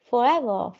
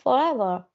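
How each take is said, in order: The two takes are said the same way.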